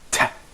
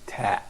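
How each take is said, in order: First: The t is released with a strong puff. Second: The t is released without a puff. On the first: This is how English says it. "with any explosion like ta" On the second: This is how Arabic says it. "In Arabic, we don't have that at all. We say ta"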